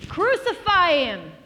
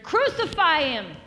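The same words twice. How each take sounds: First: Drawn-out, high, full shout; louder crowd shout. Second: Loud, high crowd cry; crowd's shout. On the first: Crowd insisting to Pilate, louder drawn-out shout. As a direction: shout it all the louder, slowly. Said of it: "they shouted all the louder". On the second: Crowd answering Pilate about Jesus, loud shout. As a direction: call it out like a crowd demanding death. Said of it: "They all answered". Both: Acted.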